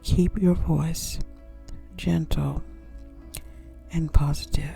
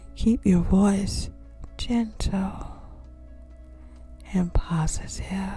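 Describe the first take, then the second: First: The tone is direct, sharp and hard. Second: The tone is soft, gentle and calm. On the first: The speaker calls it wrong. "This tone will be very direct and sharp" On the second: The speaker calls it right. "I'm going to say that again"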